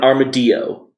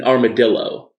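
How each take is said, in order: First: Armadillo said "ar-muh-DEE-oh"; deliberately Spanish-style armadillo. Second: Armadillo said "ar-muh-DILL-oh"; usual English armadillo. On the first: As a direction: drop the L in armadillo, like quesadilla. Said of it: "Why wouldn't we call it". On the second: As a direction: sound the double L in armadillo. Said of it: "can I give the best example". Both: Shown as a demonstration.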